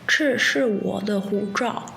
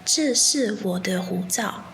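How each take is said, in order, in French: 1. Il est prononcé avec un accent chinois continental. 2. Il est prononcé avec un accent taïwanais. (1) "dans la version chinoise" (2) "Mais à Taïwan, on dit"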